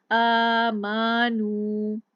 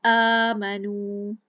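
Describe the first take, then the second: First: आमानू with mim wrongly drawn long; आमानू, dragging the mim vowel out; wrong stretched mim. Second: आमनू with mim kept short; आमनू said slowly, no stretch on mim; correct aamanoo. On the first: Teacher demonstrates a common mistake, slow stretched recitation. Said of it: "तो ये भी गलत हो जाएगा". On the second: Teacher shows the right way before the wrong one, slow careful recitation. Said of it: "अब मीम को नहीं खींचा". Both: Shown as a demonstration.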